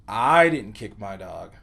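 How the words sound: The word I carries the emphasis. Someone else kicked the dog. "put the emphasis on the word I"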